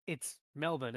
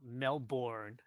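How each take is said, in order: First: Melbourne as MEL-bən, ending swallowed; correct pronunciation. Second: Melbourne drawn out as mel-BORN, R sounded; slowly mock the full 'born' in Melbourne; mispronunciation. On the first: Host correcting Americans on a city name, correct MEL-bən pronunciation. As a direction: say Melbourne with a short 'bən', R dropped. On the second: Host showing how Americans get it wrong, slow mel-BORN mispronunciation. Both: Shown as a demonstration. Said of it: "it's not Melbourne".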